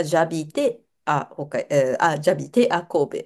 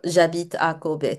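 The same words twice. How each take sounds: First: Very slow, halting J'habite à, restarting before Kobe; hesitant student reading. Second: Slow, careful J'habite à Kobe; model sentence. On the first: Retold or imitated. Student hesitantly reads the sentence to the teacher. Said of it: "学生が". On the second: Shown as a demonstration. Teacher reads the model sentence aloud slowly. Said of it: "文章を読んでもらう".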